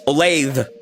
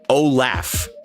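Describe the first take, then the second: First: The name ends with a th sound. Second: The name ends with an f sound. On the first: The speaker calls it right. "It's Olathe" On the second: The speaker calls it wrong. "I always said Olaf"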